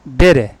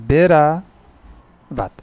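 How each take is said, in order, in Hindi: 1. शब्द छोटे, घटे हुए रूप में बोला जाता है। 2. शब्द अपने पूरे रूप में बोला जाता है।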